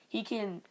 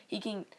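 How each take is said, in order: Both takes have the same delivery.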